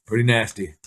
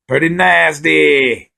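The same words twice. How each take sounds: First: Said in the usual way. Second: "Pretty nasty" in a high, slow put-on British drawl; hammed-up British accent; mock British.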